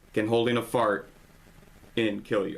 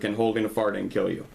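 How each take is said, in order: First: The title is broken by a misplaced pause. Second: The title is said without a misplaced pause. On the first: The speaker calls it wrong. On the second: The speaker calls it right.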